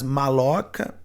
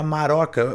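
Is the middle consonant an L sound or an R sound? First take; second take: L; R. First: The middle consonant is an L sound. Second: The middle consonant is an R sound. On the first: The speaker calls it wrong. "na língua tupi não é assim" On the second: The speaker calls it right. "Seria maroca. O L eles não tinham"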